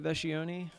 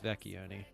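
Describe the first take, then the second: First: The middle of the name has no k sound. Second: The middle of the name has a k sound. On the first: This is the family's Americanized version. The speaker calls it wrong. "my family Americanized it. They all say Vescioni" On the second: This is the original Italian version. The speaker calls it right. "I've been saying it properly. the C C H part of it is kind of all creates that k sound"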